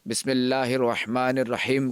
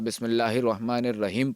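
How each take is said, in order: First: The h sounds are deep and throaty. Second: The h sounds are light and ordinary. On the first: The speaker calls it right. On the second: The speaker calls it wrong.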